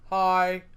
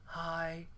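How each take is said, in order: First: A robot voice at ordinary, louder volume. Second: A robot voice at a softer, quieter volume. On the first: "with your robot voices to say with me" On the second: "let's make our voices softer in our robot voices"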